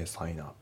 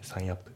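First: "sign up" joined as sai-nup; linked words. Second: "sign up" as Japanese-style sain appu; unlinked words. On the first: Teacher correcting the separated sign up, linked as one word. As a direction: slide the N of "sign" into "up". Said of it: "sign upのところもリンキングで". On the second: Teacher showing learners what to avoid in sign up, unlinked. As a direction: keep "sign" and "up" as two separate words. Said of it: "じゃなくて". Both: Shown as a demonstration.

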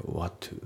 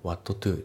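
First: What to said as wadu, softer; dropped t. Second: What to with a full t on what; What to, t kept; unlinked reading. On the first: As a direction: drop the t in what to. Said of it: "whatのTが抜けますね". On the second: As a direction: say What to with both t sounds. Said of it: "What toじゃなくて". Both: Shown as a demonstration.

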